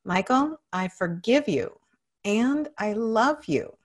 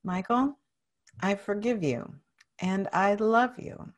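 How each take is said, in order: First: Full-voiced, emphatic affirmation; even more conviction. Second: Measured, sincere affirmation; with conviction. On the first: Client declares self-forgiveness after coach, with strong conviction. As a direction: declare it, stretching the last phrase. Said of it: "say it with even more conviction". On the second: Client repeats self-forgiveness after coach, with steady conviction. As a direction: say it firmly, a little restrained. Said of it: "Now say it with conviction". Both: Shown as a demonstration.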